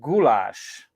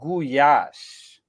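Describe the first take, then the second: First: The word is said with English pronunciation. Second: The word is said with Hungarian pronunciation. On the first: "That's how we pronounce it" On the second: "Actually, we pronounce it goulash"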